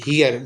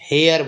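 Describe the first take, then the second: First: The vowel sounds like 'ee'. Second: The vowel sounds like 'ay'. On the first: The speaker calls it right. "इसको बोलते हैं हियर" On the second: The speaker calls it wrong. "बहुत सारे student इसका गलत उच्चारण करते हैं"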